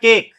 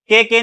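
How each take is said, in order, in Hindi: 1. आखिरी e मूक है, इसलिए एक ही अक्षर बनता है। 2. आखिरी e का उच्चारण दूसरे अक्षर की तरह होता है। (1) "ये हो गया केक" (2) "के के नहीं बोलेंगे"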